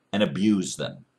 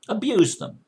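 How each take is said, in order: First: Said in the usual way. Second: "Abuse them" thrown out much higher with a falling stress on "Abuse"; a sudden higher, insistent "Abuse them"; emphatic repeat. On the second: Shown as a demonstration. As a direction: hit "Abuse" hard, pitched way up. Repeats phrase, second time emphatic.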